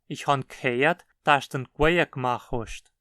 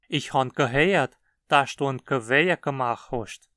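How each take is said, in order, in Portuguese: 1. Os prefixos ge- são reduzidos aos sons k e qu. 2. Os prefixos ge- são pronunciados como sílabas completas.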